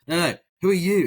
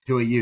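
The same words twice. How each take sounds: First: Louder, higher, insisting; mock impatient demand; insistent repeat. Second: Said in the usual way. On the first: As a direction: push the question harder. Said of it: "And he's like". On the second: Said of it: "He's like".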